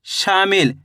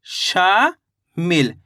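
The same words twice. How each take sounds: First: Said in the usual way. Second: शामिल split in two, a long rising शा, then a falling मिल; drawn-out syllables. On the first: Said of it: "तो मिलके बन गया ये". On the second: Shown as a demonstration. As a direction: stretch शा slowly upward, pause, then finish शामिल with मिल. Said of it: "शा का उच्चारण खींच को रहा है". (शामिल को तोड़कर, शा को खींचते हुए, फिर मिल)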